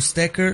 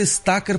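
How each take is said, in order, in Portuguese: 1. A primeira vogal não é um "a" aberto. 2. A primeira vogal é um "a" aberto. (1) "e não" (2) "porque era com A aberto"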